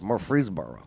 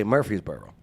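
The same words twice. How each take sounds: First: Murfreesboro with both Rs sounded; R pronounced. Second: Murfreesboro without its second R; R dropped. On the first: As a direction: say "free" in the middle of Murfreesboro. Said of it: "People forget to say Murfreesboro 'cause there's an R in there". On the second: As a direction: say Murfreesboro as "Murfeesboro". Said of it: "People forget to say Murfreesboro 'cause there's an R in there. They say". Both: Shown as a demonstration.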